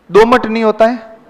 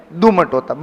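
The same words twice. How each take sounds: First: दोमट with a long o, rising as the wrong form; दोमट said with a long o, the error to avoid. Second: दुमट with a short u, settling down; दुमट with a short u, falling, as the correct form. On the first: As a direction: say दोमट as the mistake, lifting at the end. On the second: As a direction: state दुमट firmly as the right word. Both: Shown as a demonstration.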